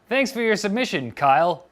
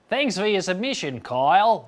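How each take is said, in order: First: It is said in the speaker's plain accent. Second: It is said in a put-on Australian accent.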